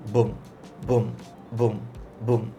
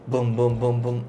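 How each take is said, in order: First: The beats come at a moderate speed. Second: The beats come quickly with short gaps. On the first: The song has a medium rhythm. "Medium rhythm" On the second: The song has a fast rhythm. "Fast rhythm"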